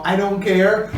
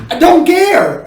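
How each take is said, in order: First: Said in the usual way. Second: "I don't care" thrown out high and loud; strong emphasis. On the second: Shown as a demonstration. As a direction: punch "don't care" hard, higher and louder. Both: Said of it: "that again is that emphasis".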